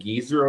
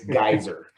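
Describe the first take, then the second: First: The first vowel is a long 'ee' sound. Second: The first vowel sounds like 'guy'. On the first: The speaker calls it wrong. "it said Geezer. So I've been calling him Geezer" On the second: The speaker calls it right. "I'm not that old. I'm a guy. It's Geyser"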